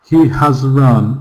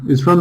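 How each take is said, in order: First: He and has are said as full separate words. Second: He and has merge into one short syllable.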